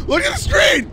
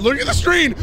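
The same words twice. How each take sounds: First: Higher, urgent shout. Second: Said in the usual way. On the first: Real, not acted. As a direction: yell it to make them look. Repeated, second shouted.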